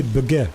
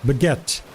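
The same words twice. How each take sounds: First: "baguette" ending on the vowel with no T; T dropped. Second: "Baguette" with the final T clearly sounded; French T sounded. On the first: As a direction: cut "baguette" off before the T. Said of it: "If it didn't have an E and a T". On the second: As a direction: say "Baguette" landing crisply on the T. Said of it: "the reason why you pronounce the T". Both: Shown as a demonstration.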